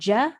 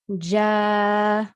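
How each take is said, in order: First: The vowel is short, not stretched. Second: The vowel is long, stretched out. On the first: "jim fatha" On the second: "jim standing fatha"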